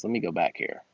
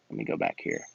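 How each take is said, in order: First: Said in the usual way. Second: Breathy whisper, much lower; whispered aside. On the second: Acted. Muttering to himself while scrolling back, whispered. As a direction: mutter it under the breath to yourself.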